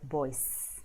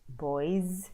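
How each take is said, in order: First: The word ends in a hissing s sound. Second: The word ends in a buzzing z sound. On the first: The speaker calls it wrong. "instead of" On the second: The speaker calls it right. "usually are pronounced as Z"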